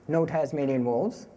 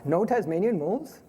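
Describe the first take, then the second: First: It is said in his plain everyday tone. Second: It is said with a Swedish-sounding tone.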